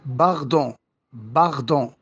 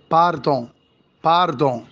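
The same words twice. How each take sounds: First: باردون as "paghdon" with a throaty r; Parisian r. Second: باردون with a tongue-tip r; rolled r. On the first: Teacher showing the Paris way, باردون with throaty r. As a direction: turn the r of باردون into غ. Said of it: "في باريس عاصمة فرنسا بتنطق". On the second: Teacher allowing the other way, باردون with rolled r. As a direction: say باردون with a clear Arabic ر. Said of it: "وينفع برضه أقول". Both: Shown as a demonstration.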